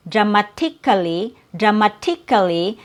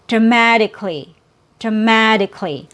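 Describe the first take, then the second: First: "dramatically" with a crisp T and "ka-lee" ending; "dramatically" with a true T instead of a tap; hard T sound. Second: "dramatically" with the t as a quick D tap; "dramatically" in four syllables, no vowel after k; fast D sound. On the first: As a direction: sound out "dramatically" in five syllables. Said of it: "there's no T sound". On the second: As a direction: stress "ma" in "dramatically", then a light "dicklee". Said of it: "And then the fast D". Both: Shown as a demonstration.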